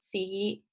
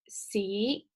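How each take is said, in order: First: The syllable is said with the fifth tone. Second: The syllable is said with the second tone.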